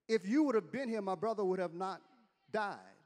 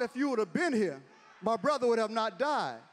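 First: It is read in a plain, neutral tone. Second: It is said in a sassy, indignant tone. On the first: A simple statement of fact. The speaker calls it wrong. "I don't believe she meant it that way" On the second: She blames him for arriving too late. The speaker calls it right. "with her hands on her hip, rolling her neck. She had attitude"

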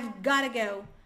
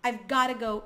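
The two takes are said the same way.

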